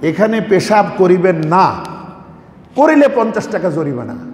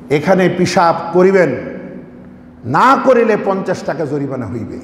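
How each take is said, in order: First: The pause comes after the word 'না'. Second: The pause comes before the word 'না'.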